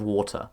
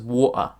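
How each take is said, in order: First: The middle t is a clear t. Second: The middle t is a glottal stop.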